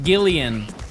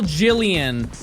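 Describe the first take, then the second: First: The name begins with a hard G sound. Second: The name begins with a soft J sound.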